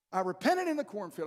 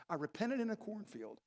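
First: "repented" stressed, falling, said a bit louder with a laugh; title-like emphasis. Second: Said in the usual way. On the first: Real, not acted. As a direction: announce "I repented in the cornfield" like a book title. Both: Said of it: "Sounds like the title of a book".

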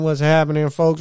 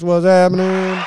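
First: Said in the usual way. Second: Much higher and louder, shouted out; hyped shout. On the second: Real, not acted. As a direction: holler it like calling to the whole crowd. Shout out to the 909.

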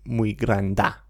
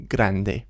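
First: Granda with an a ending; wrong ending. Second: Grande with an e ending; correct ending. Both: Shown as a demonstration. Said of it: "We don't say muy granda".

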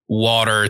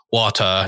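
First: WATER in an American accent, with final R. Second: Imitated British WATER, no final R; British accent. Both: Shown as a demonstration. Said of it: "changing, like you said, water to water".

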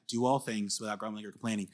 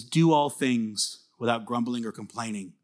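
First: Said in the usual way. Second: Slow, weighted reading of the verse; deliberate scripture reading. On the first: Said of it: "There's your command". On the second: Shown as a demonstration. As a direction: lay each word down slowly. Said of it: "It says".

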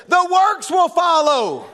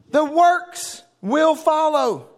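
First: "works" hit high and slow; stressing works. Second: "will" stretched very slowly, each word weighed; stressing will, drawn out. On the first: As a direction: lean on "works" as the point. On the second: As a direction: spell out the certainty of "will". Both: Shown as a demonstration.

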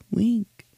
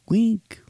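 First: Whispered echo. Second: Echo. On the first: Host echoing the segment title in a whisper. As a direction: breathe the word "week" like an echo. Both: Shown as a demonstration.

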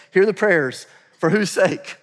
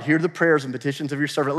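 First: Emphatic "Hear", slower and raised; stressed reread. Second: Said in the usual way. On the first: Shown as a demonstration. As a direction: lean hard into "Hear". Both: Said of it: "Listen to this".

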